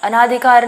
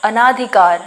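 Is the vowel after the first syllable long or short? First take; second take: long; long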